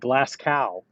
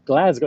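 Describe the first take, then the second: First: The middle consonant is an s sound. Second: The middle consonant is a z sound. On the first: This is how most Americans say it. The speaker calls it wrong. "Most Americans say Glasgow" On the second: This is how locals say it. The speaker calls it right. "get it with Z with a Glasgow"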